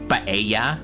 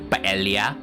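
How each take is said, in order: First: The double L sounds like an English Y. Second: The double L sounds like L plus Y. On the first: "with a Y" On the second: "pronouncing it as L Y"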